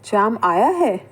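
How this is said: It is said with a surprised tone. The arrival is unexpected. "अगर हम इस तरीके से वाक्य बोलते हैं तो इसमें क्या है, आश्चर्य का भाव है।"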